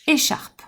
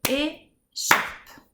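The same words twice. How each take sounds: First: Said in the usual way. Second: "Écharpe" split into two slow, separate syllables; "Écharpe" broken in two beats. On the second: Shown as a demonstration. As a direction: tap out "Écharpe" with a gap before the last syllable. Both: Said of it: "on va d'abord taper les syllabes".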